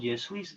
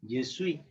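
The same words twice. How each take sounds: First: The final s of suis is pronounced. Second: The final s of suis is silent. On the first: The speaker calls it wrong. "no decimos je suis, eso no" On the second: The speaker calls it right. "la S al final no tiene sonido"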